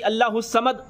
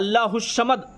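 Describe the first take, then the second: First: The s-sound is a plain thin s. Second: The s-sound comes out like sh. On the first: "सीन से बोलते हैं" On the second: "किसी का तो बड़ी शीन निकल जाता है"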